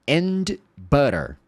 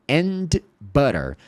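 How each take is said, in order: Both takes have the same delivery.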